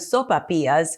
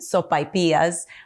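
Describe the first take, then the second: First: The second syllable has a plain 'ah' vowel. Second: The second syllable has an 'eye' diphthong. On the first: This is how people elsewhere say it. "Others will call them sopapillas" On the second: This is how it is said in southern New Mexico. "I call them sopaipillas ... with the A and the I"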